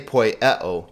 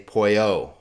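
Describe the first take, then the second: First: It has three syllables, with the middle vowel. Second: It has two syllables, the middle vowel dropped. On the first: The speaker calls it wrong. "you don't say poieo" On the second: The speaker calls it right. "you just say poio, because the epsilon goes away"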